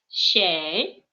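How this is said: The word begins with a soft sh sound. This is the standard literary form. "в литературном татарском языке ... нужно говорить вместо буковки ч щ"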